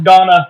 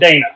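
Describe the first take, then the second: First: The first vowel is an open 'ah' sound. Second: The first vowel is an 'ay' sound. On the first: The speaker calls it right. "it is pronounced Donna" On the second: The speaker calls it wrong. "not Dana"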